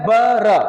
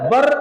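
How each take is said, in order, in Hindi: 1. र के बाद छोटा a स्वर है। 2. र के ठीक बाद कोई स्वर नहीं है। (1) "अरबी में" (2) "उर्दू में"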